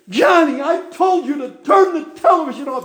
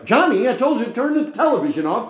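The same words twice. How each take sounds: First: It is screamed loudly and angrily. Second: It is said at a calm, normal volume.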